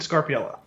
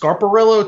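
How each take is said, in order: First: The name ends with an 'ella' sound. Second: The name ends with an 'illo' sound. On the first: The speaker calls it right. "I'm pretty sure that's how it's pronounced" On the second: The speaker calls it wrong. "I don't think that's the right pronunciation"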